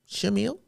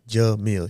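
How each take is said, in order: First: The name begins with an 'sh' sound. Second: The name begins with a 'j' sound. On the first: The speaker calls it wrong. "He used to say Shamil instead of Jamil" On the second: The speaker calls it right. "it's Jamil. Pronounce it with me"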